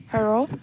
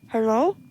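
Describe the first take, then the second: Both takes have the same delivery.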